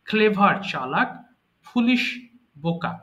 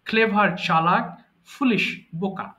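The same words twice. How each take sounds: The two takes are said the same way.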